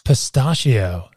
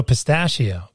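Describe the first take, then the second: First: Slow Pistachio, pis-TAH-shee-oh; stood-up A. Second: Pistachio as pis-TASH-ee-oh; flat A. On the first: Retold or imitated. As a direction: say Pistachio slowly with a long AH. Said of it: "you stood that A up". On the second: Shown as a demonstration. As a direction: say pistachio with the short A of "cat". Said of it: "you didn't go pistachio".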